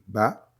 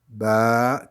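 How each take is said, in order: First: The vowel is held for one short count. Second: The vowel is held for two counts. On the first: "La première, comme on dit" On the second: "deux fois plus long"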